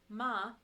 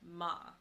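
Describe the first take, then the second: First: The pitch stays high and level. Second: The pitch falls sharply from high to low. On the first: "the first tone is the flat high tone" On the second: "your fourth tone, which is your falling tone"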